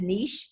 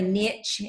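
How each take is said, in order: First: It is pronounced a non-Southern way. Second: It is pronounced the Southern way. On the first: This is how another person says it. "he says niche" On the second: This is how a Southern speaker says it. "a Southern girl say niche"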